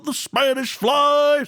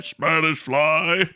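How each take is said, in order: First: Mock shout. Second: Spanish fly dropped low and slow; low drawl. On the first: Streamer mimicking the old Cosby record, mock shouting. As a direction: belt it like a comic punchline. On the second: Retold or imitated. Streamer mimicking the old Cosby record, low sly drawl. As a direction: let it sink like a sly aside.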